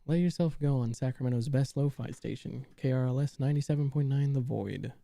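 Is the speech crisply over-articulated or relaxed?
relaxed. The words are spoken in a relaxed, natural way.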